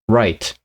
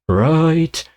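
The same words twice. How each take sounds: First: The word is said plainly, without any wavering. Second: The word is said with a wavering vibrato. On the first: "he doesn't say right" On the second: "he has this vibrato"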